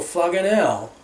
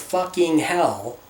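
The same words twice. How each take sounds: First: The words are clipped and run together. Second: Every sound of both words is fully pronounced. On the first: "I do truncate my words" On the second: "instead of"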